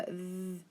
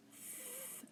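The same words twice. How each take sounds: First: "th" buzzed, as in feather; voiced TH sound. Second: "th" as pure breath, held long; unvoiced TH sound. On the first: Teacher asking for a different T H sound, voiced buzzing "th". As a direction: hold "th" with the voice on. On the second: Teacher quizzing class on spelling, breathy voiceless "th" held alone. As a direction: blow "th" with no voice. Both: Shown as a demonstration. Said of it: "but it's the voice".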